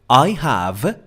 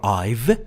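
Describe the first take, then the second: First: It is said as two full words. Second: It is said as one contracted word.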